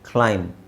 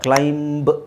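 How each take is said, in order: First: The word ends on the m sound. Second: A b sound is heard after the m. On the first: The speaker calls it right. "Can just say ಕ್ಲೈಮ್" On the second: The speaker calls it wrong. "ಕ್ಲೈಂಬ್ ಅಂತ ಹೇಳೋ ಅವಶ್ಯಕತೆ ಇಲ್ಲ"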